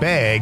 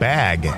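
First: Bag is said in a Wisconsin accent. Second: Bag is said in a general accent. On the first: "As Wisconsin is saying the word bag" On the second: "instead of bag"

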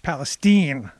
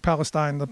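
First: It sounds different from the Middle East region name. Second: It sounds like the Middle East region name. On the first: The speaker calls it right. "No, it's Palestine. And that was the correction" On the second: The speaker calls it wrong. "like Palestine, like the Palestinians"

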